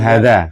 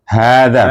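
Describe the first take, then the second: First: The first vowel is cut short. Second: The first vowel is held long. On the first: The speaker calls it wrong. "bukan hada" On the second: The speaker calls it right. "Haknya dua harokat"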